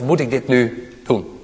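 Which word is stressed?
doen. The stress falls on the word doen.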